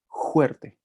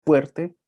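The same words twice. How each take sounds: First: "juerte" with a throaty j at the start, higher; variant pronunciation. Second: "fuerte" with a clear initial f, higher and louder; standard pronunciation. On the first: Teacher asking students to hear the contrast, "juerte" with j. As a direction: present "juerte" with j in place of f. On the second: Teacher asking students to hear the contrast, "fuerte" with f. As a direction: present "fuerte" with f, rising at the end. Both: Shown as a demonstration. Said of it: "¿Sí lo escuchan?".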